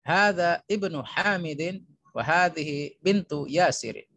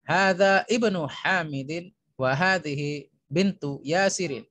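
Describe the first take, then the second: No difference in how they are said.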